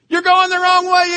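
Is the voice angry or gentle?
angry. It is yelled in an angry, harsh voice. The speaker is scolding the driver. "Does it yell and scream at you?"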